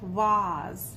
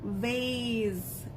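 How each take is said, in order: First: It is said with a British accent. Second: It is said with an American accent. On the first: "in English, in British English" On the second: "in American English"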